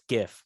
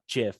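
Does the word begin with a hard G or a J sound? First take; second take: hard G; J sound. First: The word begins with a hard G sound. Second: The word begins with a J sound. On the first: The speaker calls it right. "it's GIF" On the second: The speaker calls it wrong. "not GIF. ... If you wanted it to be GIF, make it a J"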